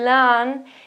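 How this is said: The vowel is short, rhyming with ran. This is a rare American variant. The speaker calls it wrong. "an American possibility to say lan"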